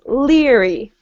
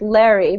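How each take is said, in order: First: The first vowel sounds like 'ear'. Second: The first vowel sounds like 'air'. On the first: The speaker calls it right. "but it's leery, right? A double E" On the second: The speaker calls it wrong. "I heard Larry"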